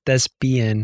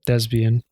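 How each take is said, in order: First: "thespian" said carefully with a P, thes-pee-an; slow down and put a clear P in "thespian"; P pronounced correctly. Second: "thespian" said with a B sound, thez-bee-an. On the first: Shown as a demonstration. Correcting their own slip, "thespian" with a crisp P. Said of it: "with a P". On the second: Real, not acted. Saying the theater word carelessly, "thespian" with a B. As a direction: say "thespian" with a buzzed B in place of the P. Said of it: "it sounds like you're saying thespian, like, with a B".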